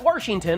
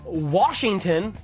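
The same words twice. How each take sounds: First: The first syllable is said with an R. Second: The first syllable is said without an R.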